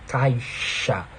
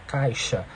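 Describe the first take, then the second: First: The sh sound is strongly reinforced and prolonged. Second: The sh sound is said in a normal, relaxed way. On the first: "se você reforçar bastante o som" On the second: "quando você fala caixa"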